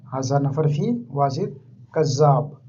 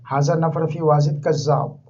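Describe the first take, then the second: First: Each word of हाजा नफर फी Wajid कज़्ज़ाब set apart, slowly; slower careful repeat. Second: Said in the usual way. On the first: Shown as a demonstration. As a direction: spell it out slowly so learners can copy. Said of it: "teacher repeats it for learners". (धीरे, साफ़ साफ़ दोहराते हुए) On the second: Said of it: "teacher models Arabic sentence".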